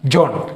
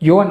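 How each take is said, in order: First: The name begins with a J sound. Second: The name begins with a Y sound. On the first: This is a familiar form used to aid memory. "ജോണിലേക്ക് നമ്മൾ അതിൻ്റെ pronunciation മാറ്റുകയാണ്" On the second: This is how the name is properly pronounced. "Pronounce ചെയ്യുന്നത് യോൻ എന്നാണ്"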